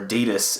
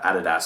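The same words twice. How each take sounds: First: It is said the American way. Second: It is said the Australian way. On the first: "as it is in America" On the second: "the way we say it in Australia"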